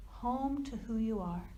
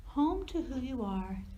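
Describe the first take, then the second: No difference in how they are said.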